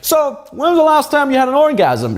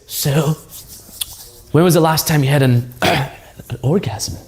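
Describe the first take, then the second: First: The question sounds casual and unbothered. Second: The question sounds hesitant and uncomfortable. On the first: The topic feels completely normal. The speaker calls it right. "in a very nonchalant way" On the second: The topic feels strange and embarrassing. The speaker calls it wrong. "instead of saying it like this"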